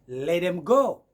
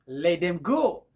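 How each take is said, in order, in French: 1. « Let them » se fond en un seul mot réduit. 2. « Let them » se fond en un seul mot réduit.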